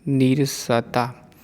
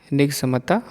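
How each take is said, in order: First: Slow निरसता; the proper नीरसता; correct form. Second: निगमता said as written; the mistaken निगमता; wrong form. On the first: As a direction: say निरसता slowly, long नी. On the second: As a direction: say निगमता, short नि. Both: Shown as a demonstration. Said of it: "अशुद्ध और शुद्ध".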